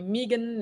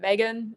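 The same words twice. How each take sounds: First: The name is said with an Australian accent. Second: The name is said without an Australian accent. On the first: This is how Australians say the name. "Aussies call me Megan" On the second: This is how the name's owner says it. "Megan is probably how I would say it"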